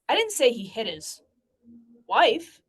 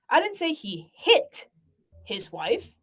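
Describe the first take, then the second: First: The stress is on the word wife. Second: The stress is on the word hit.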